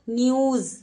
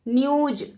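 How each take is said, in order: First: The final consonant is a 'z' sound. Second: The final consonant is a 'j' sound. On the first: The speaker calls it right. "जैसे ही आप यहां पर बिंदु लगाओगे तो कैसा उच्चारण हो जाएगा?" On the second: The speaker calls it wrong. "न्यूज हम गलत उच्चारण कर रहे हैं"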